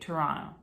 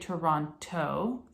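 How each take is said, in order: First: The second T sound is dropped entirely. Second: The second T sound is clearly pronounced. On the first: The speaker sounds like a local. The speaker calls it right. "don't mention the second T" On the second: The speaker sounds like an outsider. The speaker calls it wrong. "don't say Toronto"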